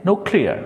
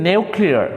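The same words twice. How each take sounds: First: ନ୍ୟୁକ୍ଲିୟର said American style as NOO-klee-a, with no y glide; ନ୍ୟୁକ୍ଲିୟର said as in American English; American pronunciation. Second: ନ୍ୟୁକ୍ଲିୟର said British style as NYOO-klee-ar, with a y glide; ନ୍ୟୁକ୍ଲିୟର said as in British English; British pronunciation. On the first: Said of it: "କିନ୍ତୁ American ଇଂଲିଶରେ". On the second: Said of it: "British ଇଂଲିଶରେ କହନ୍ତି". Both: Shown as a demonstration.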